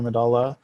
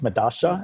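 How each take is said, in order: First: The middle consonant is not an 'sh' sound. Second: The middle consonant is an 'sh' sound.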